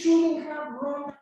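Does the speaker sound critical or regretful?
regretful. The tone sounds sorry and sympathetic. The speaker feels sorry about what happened. "I am expressing regret"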